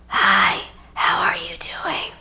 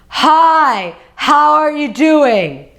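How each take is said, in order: First: It is a tight, whispery throat voice. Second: It is a deep voice from the belly.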